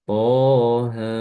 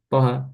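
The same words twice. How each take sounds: First: Both vowels are drawn out long. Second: Both vowels are cut short. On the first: The speaker calls it right. "secara bacaan dia tetap harus dibaca panjang" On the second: The speaker calls it wrong. "Jangan sampai kita baca toha"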